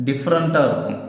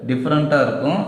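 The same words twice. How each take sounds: Both takes have the same delivery.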